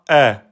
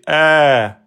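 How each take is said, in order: First: The vowel is held for one short beat. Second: The vowel is held for two beats. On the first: The speaker calls it wrong. "Ne dites pas A" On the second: The speaker calls it right. "on va donc faire deux temps"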